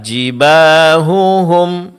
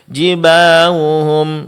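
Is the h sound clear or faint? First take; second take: clear; faint. First: The h is pronounced clearly and distinctly. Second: The h is faint and sounds like w. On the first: The speaker calls it right. "Seharusnya dibaca dengan jelas" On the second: The speaker calls it wrong. "ha di sini tidak diucapkan dengan jelas sehingga mirip dengan huruf waw"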